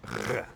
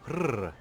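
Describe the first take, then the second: First: The R is rolled at the back of the mouth. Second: The R is rolled at the front of the mouth. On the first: "it's a back of the mouth roll like rrr" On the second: "instead of a front of the mouth roll like rrr"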